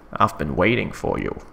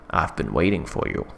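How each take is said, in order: First: It is said in a put-on villain character voice. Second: It is said in the speaker's ordinary voice.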